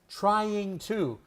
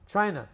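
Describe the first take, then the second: First: The two words are said separately and clearly. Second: The two words blend into one reduced word.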